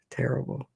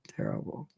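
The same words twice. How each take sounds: First: Said in the usual way. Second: "terrible" breathed out in a soft whisper. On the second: Retold or imitated. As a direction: let "terrible" fade into a whisper. Remembering childhood sadness.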